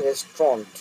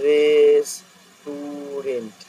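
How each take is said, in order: First: "রেস্টুরেন্ট" said quickly as "res-tront"; correct pronunciation. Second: "রেস্টুরেন্ট" stretched out as "reees-tuuu-rent"; level, elongated syllables in "রেস্টুরেন্ট", ending in "rent"; drawn-out wrong pronunciation. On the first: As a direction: say "res-tront" in two beats. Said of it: "কিন্তু কথাটা রেস্টুরেন্ট". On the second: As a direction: sound out "res-tu-rent" very slowly, holding each vowel. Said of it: "হলে উচ্চারণটা এরকম হবে". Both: Shown as a demonstration.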